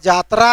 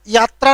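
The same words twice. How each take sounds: First: यात्रा said "jatra", starting on j; Khortha pronunciation. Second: यात्रा said "yatra", starting on y; standard pronunciation. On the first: Teacher showing how we say it, Khortha j in यात्रा. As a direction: swap the y of यात्रा for a j. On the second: Teacher citing the form Khortha speakers avoid, standard y in यात्रा. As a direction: begin यात्रा with a y glide. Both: Shown as a demonstration. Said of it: "हम लोग यात्रा नहीं बोलते हैं".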